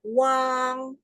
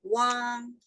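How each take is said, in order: First: Wang held high and level; first tone Wang. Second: Wang rising like a question; second tone Wang. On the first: Teacher modelling first tone. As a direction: sing Wang on one high flat note. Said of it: "can you try the four tones of Wang". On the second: Teacher modelling rising second tone. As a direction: lift Wang upward, puzzled. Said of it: "How about second tone". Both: Shown as a demonstration.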